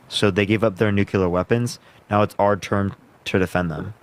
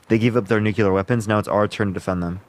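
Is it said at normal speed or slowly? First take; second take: slowly; normal speed. First: It is said more slowly. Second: It is said at normal speed.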